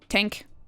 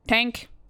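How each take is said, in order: First: It is said in an Irish accent. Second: It is said in an Irish accent.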